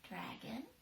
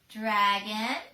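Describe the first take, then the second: First: The word is whispered very softly. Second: The word is said at moderate volume. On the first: "she whispered into it" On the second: "she said a little bit louder"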